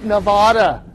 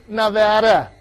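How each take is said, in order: First: Nevada with an "ah" in the middle; Nevada mispronounced as "nuh-VAH-duh"; wrong pronunciation of Nevada. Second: Nevada with a flat A as in "cat"; Nevada pronounced the local way, "nuh-VAD-uh"; correct pronunciation of Nevada. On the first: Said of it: "not Nevada". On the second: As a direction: say Nevada with the middle syllable like "add". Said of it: "but folks, it's pronounced Nevada". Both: Shown as a demonstration.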